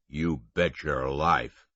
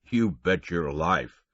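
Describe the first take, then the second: First: Canadian drawl. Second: Slow, louder Canadian conductor; Canadian drawl. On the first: Conductor assuring Tommy, slow Canadian confidence. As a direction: lean into the confident Canadian phrase. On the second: Conductor answering about the phone, amused Canadian. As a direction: say it with an amused chuckle. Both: A narrator's reading.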